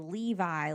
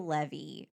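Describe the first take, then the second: First: The name ends with an 'eye' sound. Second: The name ends with an 'ee' sound. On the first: This is how other people say it. "other people say Levi like the jeans" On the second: This is how the speaker's own group says it. "like I drove my Chevy to the levee"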